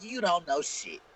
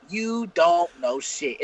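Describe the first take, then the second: First: Said in the usual way. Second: Very slow, every word spelled out; slow emphatic. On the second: Retold or imitated. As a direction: drag out "You don't know shit" word by word. Repeated slowly for emphasis.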